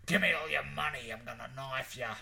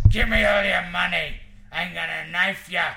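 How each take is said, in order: First: Badly faked American accent, less shouted; attempted American accent. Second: Very loud mugger's shout, pitched up; menacing American badger. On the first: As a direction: try an American mugger and miss the accent. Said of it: "he'd say it with an American accent". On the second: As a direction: demand it like an alley robber. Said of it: "Whereas the American badger's like".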